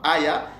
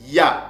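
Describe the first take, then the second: First: The word has an extra initial vowel, two syllables. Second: The word is a single syllable with no initial vowel. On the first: The speaker calls it wrong. "ne se prononcent pas aya" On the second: The speaker calls it right. "ça se prononce tout simplement ya"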